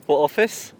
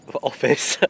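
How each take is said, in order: First: Slower, laughing, rising disbelief. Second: Said in the usual way. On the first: Real, not acted. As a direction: laugh it out, not believing him. Repeats question, laughing in disbelief.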